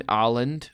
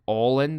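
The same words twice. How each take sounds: First: "Åland" said as EYE-lund; first guess at Åland. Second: "Åland" said as AW-lund; second guess at Åland. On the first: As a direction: try "Åland" with a long "eye" opening. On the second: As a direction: try "Åland" with a rounded "aw" opening. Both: Shown as a demonstration. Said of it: "Åland or Åland or something like that".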